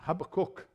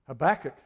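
First: The name has a Hebrew-style pronunciation. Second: The name has its usual English pronunciation.

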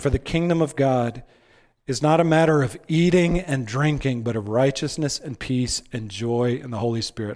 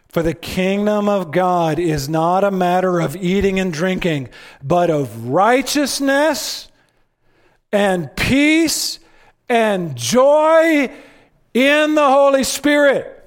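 First: It is read plainly, without extra emphasis. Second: It is read with strong, added emphasis.

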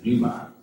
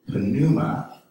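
First: The initial P sound is silent. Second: The initial P sound is pronounced.

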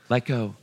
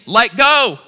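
First: It is said louder than before. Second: It is screamed at full volume.

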